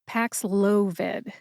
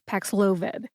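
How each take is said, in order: First: The word is said slowly with clear emphasis. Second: The word is said quickly with little emphasis. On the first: "See if you can hear it when I say it slowly" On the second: "when I say it fast, you don't really hear the emphasis"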